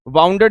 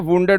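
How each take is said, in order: First: The first vowel sounds like 'ow'. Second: The first vowel sounds like 'oo'. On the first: The speaker calls it wrong. "वाउंडेड नहीं होता" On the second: The speaker calls it right. "वुंडेड होता है"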